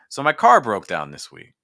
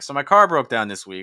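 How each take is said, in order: First: The pitch steps lower with each phrase. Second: The pitch stays at the same level. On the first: "you can hear I'm just going down, down, down" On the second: "versus always staying"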